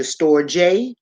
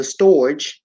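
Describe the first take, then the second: First: Storge slowly, in two syllables, "STOR-jay"; storge with final e sounded as "ay"; storge pronounced "stor-jay". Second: Storge as one syllable, "storj"; storge rhyming with "forge"; storge as spelled. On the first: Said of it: "it's pronounced". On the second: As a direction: say storge like "storj", silent final e. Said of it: "or the storge". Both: Shown as a demonstration.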